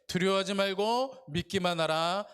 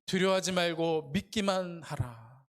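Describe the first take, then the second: First: 말고 lifted with a rising tune; stress on 말고. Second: 두려워하지 weighted, whole verse slowed; slow, stress on 두려워하지. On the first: Pastor reads verse, leaning on 말고. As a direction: lean on 말고, the verse read aloud to the congregation. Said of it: "한번 다 같이 한번 읽어보겠습니다". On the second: Pastor repeats Jesus' words slowly, weighting 두려워하지. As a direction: draw out 두려워하지 deliberately. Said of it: "하시고". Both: Shown as a demonstration.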